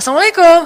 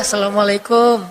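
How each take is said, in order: First: The greeting sounds eager and excited. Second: The greeting sounds pitiful and sad.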